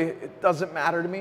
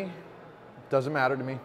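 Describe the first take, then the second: First: Said in the usual way. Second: Quieter, slower, choked up; fighting back tears, barely holding it; voice breaking. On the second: Real, not acted. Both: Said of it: "don't know why my voice breaks up like this".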